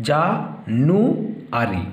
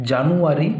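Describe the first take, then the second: First: "জা, নু, আরি" in three parts with long pauses; syllable by syllable. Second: Said in the usual way. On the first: Shown as a demonstration. Teacher dividing January for pupils, "জা, নু, আরি" syllable by syllable. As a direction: leave a clear gap after each piece of "জা, নু, আরি". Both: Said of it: "তিনটে সিলেবলে ভাগ করব".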